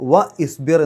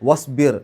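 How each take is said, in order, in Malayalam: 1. 'wa'യ്ക്ക് ശേഷം പ്രത്യേകമായ 'i' സ്വരാക്ഷരം നിലനിർത്തുന്നു. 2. 'wa' നേരിട്ട് 'i' ഇല്ലാതെ 'sbir'-ലേക്ക് ചേരുന്നു. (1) "എന്ന് പറയില്ല" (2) "എന്നേ പറയുള്ളൂ"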